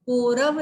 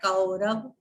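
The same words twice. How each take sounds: First: "कौरव" said as "korav", with O; louder, wrong "ko-rav" for "कौरव"; wrong pronunciation. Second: "कौरव" with open "au"; careful AU diphthong in "कौरव"; correct pronunciation. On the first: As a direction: round the first vowel of "कौरव" to "o". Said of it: "नहीं होता है". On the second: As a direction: say "कौरव" as "kau-rav". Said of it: "कौरव नहीं होता है". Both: Shown as a demonstration.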